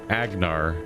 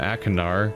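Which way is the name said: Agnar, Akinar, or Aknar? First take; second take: Agnar; Akinar. First: The name has a G sound in the middle. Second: The name has a K and an extra vowel. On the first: This is how the game's voice actor says it. "he pronounced it Agnar like a G" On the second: This follows the written spelling. "I've been calling him Akinar because that's how it's spelled"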